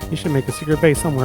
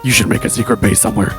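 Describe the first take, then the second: First: It is said in an ordinary speaking voice. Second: It is said in a very deep voice.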